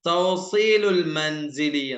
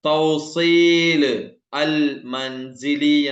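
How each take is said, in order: First: The article is linked onto the first word. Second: The article is said as a separate word. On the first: "തൗസീലുൽ മൻസിലി എന്ന് പറയും" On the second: "തൗസീൽ അൽ മൻസിലി എന്നതിനെ"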